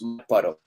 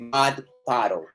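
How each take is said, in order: First: The vowel is small, with the mouth barely open. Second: The vowel is wide, with the mouth open. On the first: The speaker calls it right. "una a muy perezosa. La apertura vocal es muy baja" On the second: The speaker calls it wrong. "No vayan a decir mud puddle"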